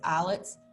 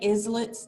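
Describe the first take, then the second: First: The word is not said as it is spelled. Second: The word is said just as it is spelled. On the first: This is the accepted pronunciation. "I know it's islets" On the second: It helps listeners remember the spelling. "I say islets so that you can spell it correctly"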